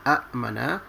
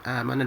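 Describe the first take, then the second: First: Two glottal stops split the opening vowel sound. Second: The opening vowel is one smooth long sound. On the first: "Bila bergabung dua hamzah ini, dia akan menjadi a'mana" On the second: "akhirnya menjadi amana dipanjangkan"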